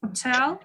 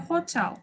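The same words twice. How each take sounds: First: Hotel with the final TEL stressed; stress on second syllable. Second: Hotel with the opening HO stressed; stress on first syllable. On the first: Teacher showing both options, Hotel stressed on the second syllable. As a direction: put the weight on TEL in Hotel. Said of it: "экинчисине деле туура келсе". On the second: Teacher showing both options, hotel stressed on the first syllable. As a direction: put the weight on HO in hotel. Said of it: "Биринчисине деле". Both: Shown as a demonstration.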